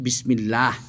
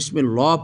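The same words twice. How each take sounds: First: The 'l' of Allah is light and thin. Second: The 'l' of Allah is heavy and thick. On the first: The speaker calls it right. "আমরা পড়ছি বিসমিল্লাহ" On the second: The speaker calls it wrong. "আমরা কিন্তু বিসমিল্লাহ পড়ি না"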